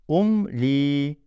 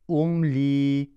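No difference in how they are said.

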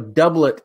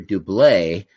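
First: The name is pronounced the English way. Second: The name is pronounced the French way. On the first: This is how the name's owner says it. The speaker calls it right. "but he's English, so Doublet is the right pronunciation" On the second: The speaker assumed the name was French. The speaker calls it wrong. "I always called him Barry Dublet because he was from France"

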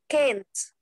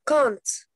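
First: It is said with an American accent. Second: It is said with a British accent. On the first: "In American, can't" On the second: "in British, we say can't"

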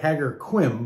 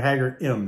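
First: The Q is sounded as a k. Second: The Q is not sounded at all. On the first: This is how the spelling suggests it is said. The speaker calls it wrong. "it looks like" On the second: This is how locals actually say it. The speaker calls it right. "it's really Ħaġar Qim. They don't pronounce the Q"

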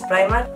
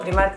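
First: The name is pronounced the English way. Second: The name is read out as it is spelled. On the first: This is how the name is really pronounced. "ya sé que es Primark" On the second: This is the speaker's habitual way of saying it. "yo es que digo Primark de siempre"

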